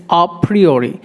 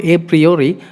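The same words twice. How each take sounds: First: A in A PRIORI said "ah"; open, short A before PRIORI; corrected pronunciation. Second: A in A PRIORI said "ay"; long English letter-name A before PRIORI; wrong pronunciation. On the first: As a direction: say "ah pree-oree". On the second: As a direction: say "ay pree-oree". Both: Shown as a demonstration. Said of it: "It's not a priori".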